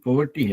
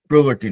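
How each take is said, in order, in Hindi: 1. पहला अक्षर 'po' है, इसमें 'r' नहीं है। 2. पहला अक्षर 'pro' है, इसमें 'r' है। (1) "पोवर्टी है वो" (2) "प्रोवर्टी नहीं"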